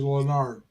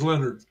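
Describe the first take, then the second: First: The name ends with a 'nard' sound. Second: The name ends with a 'nerd' sound. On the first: This is the listener's own name. "It's Nard" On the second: This is the television character's name. "It's even got nerd in the name"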